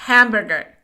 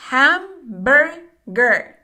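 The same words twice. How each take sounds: First: Said in the usual way. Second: Hamburger stretched out very slowly, each syllable separate. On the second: Shown as a demonstration. Teacher to Spanish-speaking learners, modelling Hamburger very slowly. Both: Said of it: "pronunciation teacher models word".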